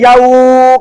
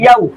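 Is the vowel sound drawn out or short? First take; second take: drawn out; short. First: The vowel sound is stretched out long. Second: The vowel sound is soft and quick. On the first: The speaker calls it wrong. "अगर कोई यहाँ पे याऊ करेगा तो गलत पढ़ना पढ़ रहा होगा" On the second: The speaker calls it right. "नरम आवाज के साथ जल्दी पढ़ते हैं"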